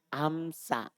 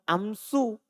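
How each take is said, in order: First: The word ends in an a vowel. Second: The word ends in a u vowel. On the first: This is the Bani Tamim reading in the accusative and genitive. "Dan dia baca fathah amsa" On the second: This is the Bani Tamim reading in the nominative. "kalau Bani Tamim, dia baca dhamma amsu"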